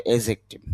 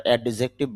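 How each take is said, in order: First: "অ্যাডজেক্টিভ" with the d silent; "অ্যাডজেক্টিভ" going straight from the first vowel into the j; correct pronunciation. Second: "অ্যাডজেক্টিভ" with the d sounded before the j; "অ্যাডজেক্টিভ" with an audible "ad" at the start; common mispronunciation. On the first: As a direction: say "অ্যাডজেক্টিভ" carefully as "AE-jek-tiv". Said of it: "শুদ্ধ উচ্চারণটা হবে অ্যাডজেক্টিভ". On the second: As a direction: say "অ্যাডজেক্টিভ" as "ad-jek-tiv", voicing the d. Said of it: "যদি আমরা অ্যাডজেক্টিভ বলি". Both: Shown as a demonstration.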